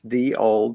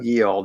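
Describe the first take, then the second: First: The first word starts with a th sound. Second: The first word starts with a y sound. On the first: The speaker calls it right. "It's the old whatever" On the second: The speaker calls it wrong. "There is no ye old"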